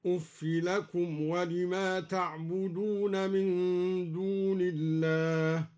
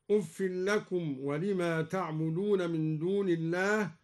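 First: أف with kasra on fa without tanwin, slow chant; uffi reading. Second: Said in the usual way. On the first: Shown as a demonstration. Reciter demonstrating Duri reading, slow chanted أف. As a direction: end أف on a short i. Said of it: "هكذا". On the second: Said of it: "قرأ الدوري بكسر الفاء".

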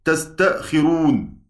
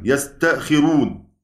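First: تستأخرون said slowly with a clear ta sound at the start. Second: يستأخرون said slowly with a clear ya sound at the start. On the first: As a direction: start تستأخرون on ta, tas-ta-khi-run. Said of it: "بلفظ الخطاب". (تستأخرون بالتاء بوضوح وببطء) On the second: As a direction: start يستأخرون firmly on ya, yas-ta-khi-run. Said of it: "بالياء يعني". (يستأخرون بالياء بوضوح وببطء) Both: Shown as a demonstration.

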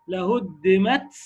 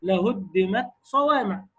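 First: Slow لهدمت ending in a long ts hiss; wrong exaggerated hams. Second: Slow لهدمت صوامع with a light breath after ت; correct light hams. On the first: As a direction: overdo the ت of لهدمت until it becomes ts. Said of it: "أنت هتقول إيه بقى؟". (مبالغة خاطئة في همس تاء لهدمت) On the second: Shown as a demonstration. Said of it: "أنا هقول لك القراءة الصحيحة أهي". (قراءة صحيحة بهمس خفيف في تاء لهدمت)

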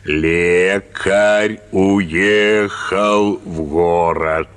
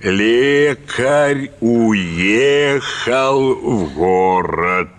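First: "Лекарь уехал в город" dragged out very slowly; slow dictation again. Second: "Лекарь уехал в город" spelled out very slowly, word by word; slow dictation. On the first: Teacher dictating the same phrase once more, very slowly. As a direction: read it out like a schoolmaster dictating. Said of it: "опять пиши". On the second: Teacher dictating to the pupil, very slow and deliberate. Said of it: "и диктует". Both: Retold or imitated.

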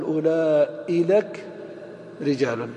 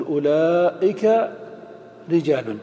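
First: أولئك said as أولالك, with an added lām; wrong form. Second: أولئك said slowly, with kāf only; correct form. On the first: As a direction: drag out the mistaken أولالك. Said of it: "ولا تقل". (نطق أولالك الخاطئ بتمهل) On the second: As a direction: model أولئك رجال as the right form. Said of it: "تقول". (نطق أولئك الصحيح ببطء) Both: Shown as a demonstration.

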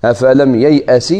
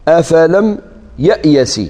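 First: "ييأس" said as yay-as, in the usual letter order; standard reading. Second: "يأيس" said as ya-ya-s, with the letters swapped; transposed reading. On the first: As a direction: recite "أفلم ييأس" clearly. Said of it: "كاين قراءة هكذا". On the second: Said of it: "قراءة تقديم". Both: Shown as a demonstration. Teacher contrasting the two readings of the verb.

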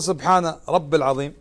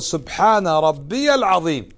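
First: "سبحان رب العظيم" with plain رب, no final i sound; wrong form. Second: "سبحان ربي العظيم" slowly, leaning on ربي with a clear ي; correct form. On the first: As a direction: say رب short, without the ي. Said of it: "إذا ما تقول". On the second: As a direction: stretch out ربي as the right reading. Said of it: "وإنما تقول". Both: Shown as a demonstration.

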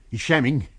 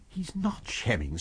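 First: Louder, blunt accusation; gruff suspicion. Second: Soft, slow, careful reply; cautious. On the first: Navvy warning the doctor, gruff and suspicious. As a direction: insist he is faking. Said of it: "said the navvy". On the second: Doctor answering the navvy, soft and cautious. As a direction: correct him gently. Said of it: "said the doctor, cautiously". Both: A narrator's reading.

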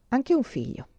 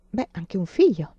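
First: Said in the usual way. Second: Whispered half-aside; hushed whispered remark. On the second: A narrator's reading. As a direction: breathe it out, barely voiced. Anna's doubtful interjection.

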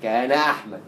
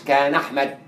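First: كان أحمد with a clear glottal stop before أحمد; the correct reading, hamza kept; hamza pronounced. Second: كان أحمد run together, the hamza of أحمد left out; the wrong, linked reading; hamza dropped. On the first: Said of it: "لا". ("كان أحمد" مع نطق الهمزة) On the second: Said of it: "ما قلتش". ("كان أحمد" موصولة بدون نطق الهمزة) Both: Shown as a demonstration.

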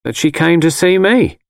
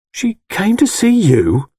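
First: Higher-voiced mother stating a fact; mother's matter-of-fact statement. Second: Slow, high-pitched, incredulous question; dumbfounded. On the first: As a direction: tell your son plainly, as his mother. Mother states it, son echoes. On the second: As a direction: repeat it slowly in stunned disbelief. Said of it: "I asked, dumbfounded". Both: A narrator's reading.

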